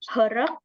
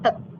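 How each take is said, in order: First: An R sound is heard before the final K. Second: No consonant is heard before the final K. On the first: The speaker calls it wrong. "Jadi bukan herek" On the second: The speaker calls it right. "tapi langsung hek gitu aja"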